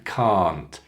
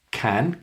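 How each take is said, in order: First: "can't" said cahnt, long. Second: "Can" short, a as in cat; short vowel. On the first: Teacher contrasts two words, long "can't". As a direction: stretch "can't" with an open ah. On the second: Teacher contrasts two words, short "Can". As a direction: keep "Can" brief and front. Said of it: "Can, short". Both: Shown as a demonstration.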